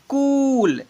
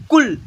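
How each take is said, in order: First: कूल with a stretched "koo"; long oo sound. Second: कुल with a short, quick "ku"; short u sound. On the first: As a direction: draw out the vowel in कूल slowly. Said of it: "इसे पढ़ेंगे". (कूल में ऊ को लंबा खींचकर) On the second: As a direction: keep the vowel of कुल brief. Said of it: "थोड़ा कम sound". (कुल में उ की ध्वनि छोटी) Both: Shown as a demonstration.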